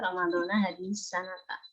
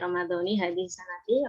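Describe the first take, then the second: First: The words end with an 'a' vowel. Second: The words end with an 'i' vowel. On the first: 'This year' stands apart as a time adverb. "Harus serasi" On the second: Ramadan is grammatically joined to 'this year'. "Harus serasi"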